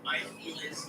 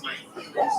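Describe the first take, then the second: First: Said in the usual way. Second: High, whiny mocking "my feelings". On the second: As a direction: mimic her in a high whine. Mocking her explanation.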